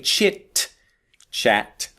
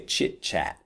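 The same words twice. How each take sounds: First: The two words are said separately, not blended. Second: The two words are blended smoothly together. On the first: The speaker calls it wrong. "So I don't say chit chat" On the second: The speaker calls it right. "Listen carefully to how this blends"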